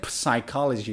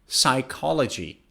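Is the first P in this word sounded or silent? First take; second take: sounded; silent. First: The first P sound is pronounced. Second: The first P sound is left out. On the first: The speaker calls it wrong. "you don't say psychology" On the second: The speaker calls it right. "you say psychology"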